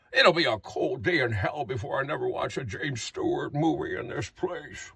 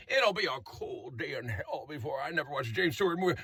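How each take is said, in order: First: Put-on James Stewart-like old man. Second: Put-on much softer, low old-man grumble; James Stewart-like old man. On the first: Old resident grumbling to nursing home staff, lower James Stewart voice. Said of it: "Do you not hear the resemblance in your voice". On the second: Resident complaining about the noise, quiet James Stewart voice. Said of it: "Someone is going".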